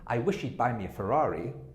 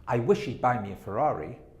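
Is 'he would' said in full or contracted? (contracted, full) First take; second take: contracted; contracted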